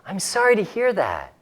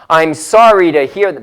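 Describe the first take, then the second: First: It is said in a soft, gentle voice. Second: It is said in a hard, unsoftened voice. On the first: The speaker calls it right. "kind of use a soft voice" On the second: The speaker calls it wrong.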